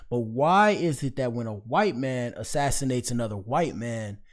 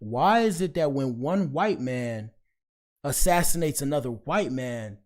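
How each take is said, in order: First: It is said at normal speed. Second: It is said slowly and deliberately.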